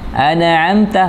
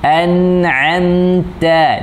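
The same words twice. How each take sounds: First: The consonant is stressed with a bouncing echo sound. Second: The sound flows smoothly without a break. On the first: The speaker calls it wrong. "menegaskan tapi bunyi pantulan... enggak boleh ya" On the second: The speaker calls it right. "dialirkan suaranya"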